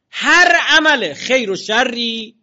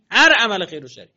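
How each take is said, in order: First: هر عمل خیر و شری drawn out very slowly, higher and louder, stress on هر; slow emphatic stress. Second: Said in the usual way. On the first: Shown as a demonstration. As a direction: stretch out هر عمل خیر و شری word by word, leaning hard on هر. (با تأکید و کشیده گفتن «هر عمل خیر و شری»)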